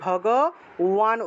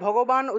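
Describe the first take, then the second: First: The middle consonant is a w sound. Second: The middle consonant is a b sound. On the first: The speaker calls it right. "ভগওয়ান উচ্চারণ করব" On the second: The speaker calls it wrong. "ভগবান উচ্চারণ না করে"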